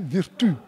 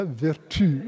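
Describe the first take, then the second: First: "virtu" pronounced vir-tu, not ver-tu; contrasted word form. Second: Said in the usual way. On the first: Shown as a demonstration. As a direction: stress "virtu", saying i where vertu has e. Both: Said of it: "le titre peut être frappé".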